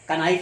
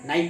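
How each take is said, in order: First: A k sound is heard before the n. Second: The word begins directly with the n sound. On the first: This is how the word is written. The speaker calls it wrong. "लिखा जाता है" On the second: This is how the word is actually read. The speaker calls it right. "नाइक पढ़ा जाता है"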